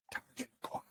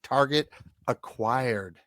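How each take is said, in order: First: Secretive whisper, barely there. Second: Said in the usual way. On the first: Acted. Boy on a secret mission, whispered. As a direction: whisper it like a covert signal. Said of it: "Later, he also whispers".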